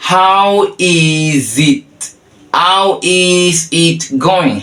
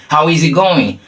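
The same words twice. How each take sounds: First: Very slow, stretched words, higher; slow demonstration. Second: Said in the usual way. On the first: Shown as a demonstration. Teacher introduces the third way of asking, slow demonstration. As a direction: hold each word for the learner.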